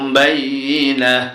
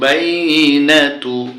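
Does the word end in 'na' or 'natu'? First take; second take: na; natu. First: The word stops short after 'na'. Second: The word ends with a final 'tu' syllable. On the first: The reader stops at this word. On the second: The reading continues without stopping.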